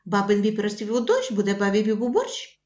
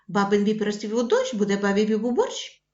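First: It is said quickly with a surprised tone. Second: It is said quickly with a surprised tone.

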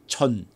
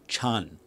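First: The ch is sharp and the vowel short. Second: The ch is soft and the vowel long. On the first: The speaker calls it right. "It's shorter" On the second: The speaker calls it wrong. "the way most like Americans say Wing Chun. It's totally wrong"

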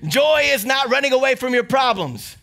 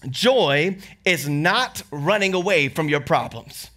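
First: It is said louder and with more force. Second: It is said at a normal speaking volume.

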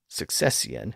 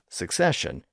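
First: The word has an older, archaic pronunciation. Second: The word has its modern everyday pronunciation.

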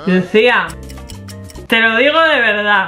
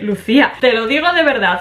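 First: The phrase is spoken very slowly and draggingly. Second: The phrase is spoken at a quicker pace. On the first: "la velocidad de pronunciación de Manuel es a frase por segundo" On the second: "voy a hacerlo un pelín más rápido"

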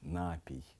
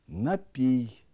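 First: The word carries a shifted stress placement. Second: The word carries its standard stress placement. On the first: The speaker calls it wrong. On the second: The speaker calls it right.

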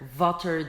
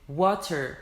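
First: The w is a hard, forceful u sound. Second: The w is soft and airy, like blowing wind. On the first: The speaker calls it wrong. "Water değil. ... u demeyin yani sanki ağaç kesiyorsunuz gibi" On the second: The speaker calls it right. "sanki böyle rüzgar esiyor ağzından"

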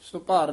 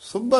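First: The second syllable has a long 'aa' vowel. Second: The second syllable has a short 'a' vowel. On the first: The speaker calls it wrong. "ਇਹ ਸੁਭਾਰ ਨਹੀਂ ਬੋਲਣਾ" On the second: The speaker calls it right. "ਸੁਭਰ ਉਚਾਰਨ ਕਰਨਾ"

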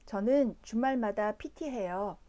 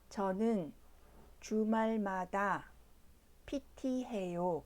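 First: The sentence is spoken at normal speed. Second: The sentence is spoken slowly. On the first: "자막 없이 표준 속도로 2번 들려드립니다" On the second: "천천히 2번 들려드립니다"

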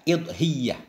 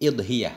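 First: The y sound is doubled and held longer. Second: The y sound is single and short. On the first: "dengan kasrah hamzah tasydid ya" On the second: "nggak pakai tasydid"

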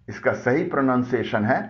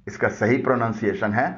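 The two takes are said the same way.

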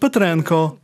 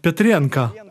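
First: The surname is said the Ukrainian way. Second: The surname is said the Russian way. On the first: This is the surname's own native form. The speaker calls it right. "Not Petrenko" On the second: This is how Russians distort the surname. The speaker calls it wrong. "but Petrenko"

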